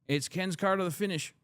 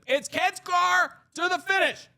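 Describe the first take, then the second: First: It is spoken at a normal, regular volume. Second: It is spoken loudly, as if over noise. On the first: The speaker calls it wrong. "that's just regular" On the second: The speaker calls it right. "Like he'd have to be like"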